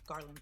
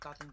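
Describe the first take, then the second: First: The word is said at a normal, careful speed. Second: The word is said very fast and blurred.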